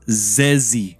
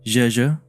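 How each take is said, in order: First: The name starts with a plain Z sound. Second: The name starts with a soft J sound. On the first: This is the speaker's personal way of saying it. "I just ignore the H" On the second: This is the name's real pronunciation. "the correct pronunciation is uh Jeje"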